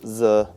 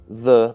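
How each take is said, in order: First: It begins with a z sound. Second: It begins with a th sound. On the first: The speaker calls it wrong. "becomes z" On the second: The speaker calls it right. "the common problem of th"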